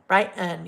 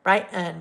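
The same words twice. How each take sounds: First: The middle t sound is dropped. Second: The same.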